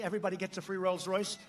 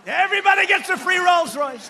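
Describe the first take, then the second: First: Dry sarcastic aside, a touch softer; sarcastic joke. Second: Belted out higher and much louder, mocking; sarcastic shout. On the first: Retold or imitated. A joking line told to the rally crowd, said sarcastically. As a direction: toss it off as an obvious joke. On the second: The joke shouted again to the rally, mock outrage. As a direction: yell it to the crowd like a taunt. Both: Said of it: "I say sometimes jokingly, sarcastically".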